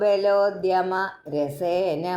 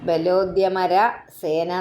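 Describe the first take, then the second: First: The break comes after 'balodyama', before 'rasena'. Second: The break comes after 'balodyamara', before 'sena'. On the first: The phrase is read as 'rasena', with delight. The speaker calls it right. "ബലോദ്യമ കഴിഞ്ഞിട്ട് ഒരു comma നിർബന്ധമായിട്ടും ഇടണം" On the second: The phrase is read as 'sena', an army. The speaker calls it wrong. "അല്ലെങ്കിൽ ബലോദ്യമര സേന എന്ന് വായിക്കും. അങ്ങനെയല്ല"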